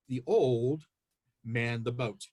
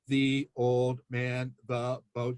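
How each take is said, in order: First: It is read as one smoothly phrased sentence. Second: It is read word by word with breaks. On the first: The speaker calls it right. "phrase it slightly different and read it this way" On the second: The speaker calls it wrong. "they tend to read in that word by word manner"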